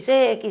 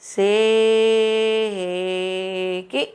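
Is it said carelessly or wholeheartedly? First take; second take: carelessly; wholeheartedly. First: It is said carelessly, without feeling. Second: It is said wholeheartedly, with feeling. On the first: The speaker calls it wrong. "ऐसे नहीं करेंगे" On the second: The speaker calls it right. "बड़े मन से बोलेंगे"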